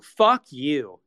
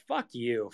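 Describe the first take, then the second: First: Louder fuck you. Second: Said in the usual way. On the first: Real, not acted. Streamer telling off fans, louder second insult. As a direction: punch it out louder.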